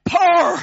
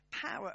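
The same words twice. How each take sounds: First: Loud, high burst in a Northern Ireland accent. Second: Said in the usual way. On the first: Shown as a demonstration. Preacher showing off one word to the congregation, shouted Northern Ireland accent. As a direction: belt it out in a Northern Irish accent. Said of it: "in my Northern Ireland accent". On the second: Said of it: "I can do, I can do".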